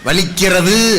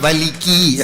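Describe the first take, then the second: First: The verb is said in its full form. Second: The verb is cut short at the end. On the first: This is the standard way of saying it. "வலிக்கிறது அப்படின்னு சொல்ல சொல்லுங்க" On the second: This is the regional dialect way of saying it. "வலிக்கி அப்படின்னு"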